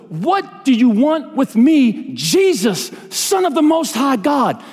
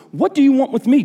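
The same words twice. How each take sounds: First: High, slow, drawn-out cry; scripture shout. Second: Scripture shout read aloud, higher at the start; mild shout. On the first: Preacher voicing the demons crying out to Jesus, scripture shout. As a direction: cry out each phrase as a preacher would. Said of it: "he shouted to the top of his voice". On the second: Preacher reading the demon-possessed man's words to Jesus, mild shout. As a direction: read a cry with a raised pitch, not full volume. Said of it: "He shouted at the top of his voice". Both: A narrator's reading.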